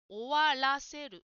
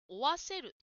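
First: The middle syllable 'ra' is clearly said. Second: The middle syllable 'ra' is left out. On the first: The speaker calls it right. "終わらせるですね。" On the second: The speaker calls it wrong. "ジムさんは終わせると言っているように聞こえました。"

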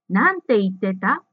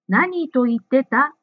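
First: The word before the verb is pronounced 'nante'. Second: The word before the verb is pronounced 'nan to'. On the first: The speaker calls it right. "正しい文は" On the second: The speaker calls it wrong. "ジムさんは何と言ってたと言っていましたが"

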